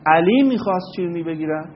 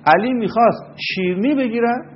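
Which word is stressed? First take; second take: علی; شیرنی. First: The stress falls on the word علی. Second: The stress falls on the word شیرنی. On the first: Nobody expected this person to want to buy sweets. "اگر شما بر روی کلمه علی تمرکز بکنید و تکیه صداتون رو ببرید اونجا، اینطور بگید" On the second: He might have wanted to buy something else. "یعنی علی چیز دیگه ای ممکن بوده میخواسته بگیره"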